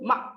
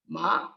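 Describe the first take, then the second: First: The pitch falls throughout. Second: The pitch rises throughout. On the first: "Falling tone" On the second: "And it's a rising tone"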